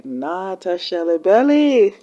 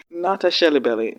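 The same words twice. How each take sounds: First: Slow, stretched "Not a Shelly Belly"; drawn-out repeat. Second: Said in the usual way. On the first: Real, not acted. Reactor scolding Franny's pursuers, "Not a Shelly Belly" drawn out. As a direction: draw out "Not" and "Belly" for emphasis.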